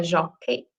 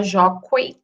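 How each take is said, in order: First: Jockey said as jó-kei, the u silent; u mudo. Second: Jockey said as jó-kuei, with the u sounded; u pronunciado. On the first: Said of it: "a gente fala jockey". (jockey falado sem u, jó-kei) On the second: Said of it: "a gente não fala jockey". (jockey falado com u, jó-kuei) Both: Shown as a demonstration.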